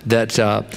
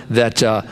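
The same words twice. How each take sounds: The two takes are said the same way.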